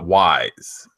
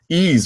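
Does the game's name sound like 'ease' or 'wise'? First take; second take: wise; ease. First: The name is said like wise. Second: The name is said like ease. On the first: "I always called it Wise" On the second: "Ease was one of those games"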